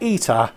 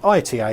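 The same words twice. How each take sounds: First: It is said as one word, like 'Ita'. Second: It is spelled out as three separate letters. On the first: "as in Italia" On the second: "I called it I T A in the intro"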